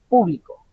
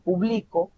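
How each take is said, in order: First: The stress is on the first syllable. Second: The stress is on the middle syllable. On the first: It refers to a group of people. "el acento tónico está en la primera, en la primera sílaba" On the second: It is an action in the present. "la mayor fuerza vocal se identifica a mitad"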